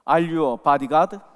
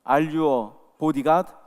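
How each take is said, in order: First: It is spoken quickly and runs together. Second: It is spoken slowly, each word distinct. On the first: "발음이 너무 빨라서" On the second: "또박또박 이렇게 다시 한번"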